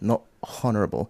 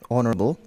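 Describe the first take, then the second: First: The word starts with an audible H sound. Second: The word starts with no H sound. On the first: The speaker calls it wrong. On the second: The speaker calls it right.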